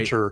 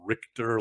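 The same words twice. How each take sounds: First: The middle sounds like 'ch', as in Ritch-er. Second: The middle sounds like 'k', as in Rick-ter. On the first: The speaker calls it right. "you properly said it. R I T C H" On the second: The speaker calls it wrong. "a lot of people I remember mispronounced his name. They they would call him like Richter, like it would be R I C H T E R"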